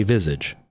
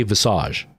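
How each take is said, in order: First: Visage as "VIZ-idge"; anglicised Visage, rhyming with "midge"; English pronunciation. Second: Visage as "vih-SAHZH"; Frenchified Visage with a long "ah"; French-style pronunciation. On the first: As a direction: hit the first syllable of Visage, ending in "idge". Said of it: "Canadians don't say Visage". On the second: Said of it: "because it's a French word". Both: Shown as a demonstration.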